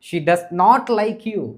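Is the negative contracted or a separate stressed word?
separate. The word 'not' is separate and stressed.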